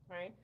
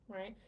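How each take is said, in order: No difference in how they are said.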